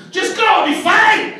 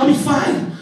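First: Very high-pitched argumentative yell; mock yelling. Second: Raised, high-pitched insistence; retold argument. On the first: Man urging his girlfriend to go, frantic mock yelling. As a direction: yell it back, pitch shooting right up. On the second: Man assuring his girlfriend he'll be fine, mock arguing. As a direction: insist as the argument starts to heat up. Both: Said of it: "yelling argument with her".

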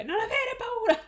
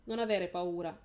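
First: Much higher and louder, a full shout. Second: Said in the usual way. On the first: Acted. Adult Lara shouts to her younger self, full shout. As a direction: yell it across the fire. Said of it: "le gridò la Lara adulta".

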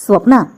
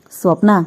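First: Loud, furious name-call; raised, commanding shout, narrator's version; lion-like roar. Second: Composed, serious call; steady, dignified address; calm, grave. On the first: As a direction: thunder the name in anger. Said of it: "సింహగర్జనలా వినిపించింది అతని కంఠం". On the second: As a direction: call the name calmly and gravely. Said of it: "అతని కంఠం శాంత గంభీరంగా పలికింది". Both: A narrator's reading.

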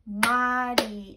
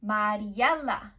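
First: "Mariela" loud, in four separate beats; syllable by syllable. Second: Said in the usual way. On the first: Shown as a demonstration. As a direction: clap out "Mariela", one beat for each syllable. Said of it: "listen to the syllables and let's clap to them". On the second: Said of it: "Let's try my first name".

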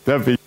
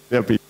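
Both takes have the same delivery.

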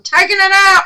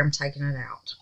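First: High, loud, gleeful announcement; loud declaration. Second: Soft, low, to herself; decide it quietly; quiet resolve. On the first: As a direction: announce it boldly to viewers. Repeating it loud to viewers. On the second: Deciding to unmold anyway. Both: Real, not acted.

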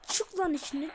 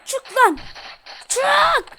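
First: Said in the usual way. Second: Loud higher yell; loud frustrated yell at the enemy; shouting. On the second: Real, not acted. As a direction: bark it out at the enemy. Urging in fight.

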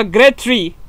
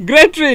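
First: Said in the usual way. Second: Grade three said as "Great tree", laughing, slightly higher; mock mispronunciation. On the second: Shown as a demonstration. Gamer laughs at his own slip while reading quest, as "Great tree". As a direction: blur "Great tree" into one giggly word. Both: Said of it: "Look, listen".

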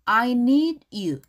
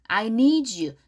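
First: "I need you" with need and you kept apart; unlinked words. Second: "I need you" run together as "I nee-joo"; linked pronunciation. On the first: Teacher modelling English for Korean learners, "I need you" unlinked. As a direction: say "I need you" slowly, "need" ending on a clean d before "you". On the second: Teacher showing Korean learners the link, "need you" said as "nee-joo". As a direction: join the d of "need" to "you" with a j sound. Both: Shown as a demonstration. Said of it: "do하고 you가 붙이면 I need you".

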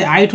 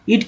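First: आइट with I said as "eye"; long "eye" sound opening आइट; letter-name vowel. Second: इट with a short "ih" at the start; short "ih", not "eye", in इट; short i vowel. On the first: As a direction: say आइट to rhyme with "kite". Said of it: "इस तरह से आइट हो जाता है". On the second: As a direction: say इट like English "it". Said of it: "पढ़ा जा रहा है". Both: Shown as a demonstration.

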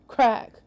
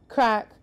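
Both takes have the same delivery.

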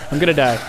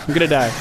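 Both takes have the same delivery.

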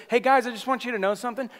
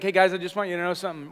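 First: High, quick, mock-cheerful greeting; happy-happy preacher. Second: Quick, matter-of-fact, no cheer; not happy. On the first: Preacher imagining Paul addressing the church, mock happy-happy. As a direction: imitate an overly happy preacher chirping hello. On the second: Acted. Paul confronting a divided church, not happy. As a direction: deliver it as a no-nonsense correction. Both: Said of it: "he wasn't, like, happy, happy".

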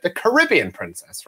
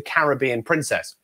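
First: Caribbean said the American way, ca-RIB-be-an, stress on RIB; mock-American Caribbean with the stress on RIB; American pronunciation. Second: Caribbean said the British way, CA-ri-BEE-an, stress on BEE; British pronunciation. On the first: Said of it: "as Americans would call it". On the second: Shown as a demonstration. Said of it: "or as Americans would call it".

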